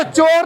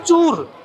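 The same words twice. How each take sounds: First: चोर said as chor with a long o, the wrong way, amused; चोर pronounced chor, the mistake to avoid; wrong reading. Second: चूर said as choor with a long u sound; चूर pronounced choor, the proper name; correct reading. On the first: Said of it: "इसको चोर नहीं पढ़ना है". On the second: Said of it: "इसको पढ़ना है चूर". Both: Shown as a demonstration.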